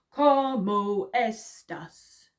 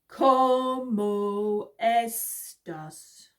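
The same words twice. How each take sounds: First: It is said fast. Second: It is said slowly.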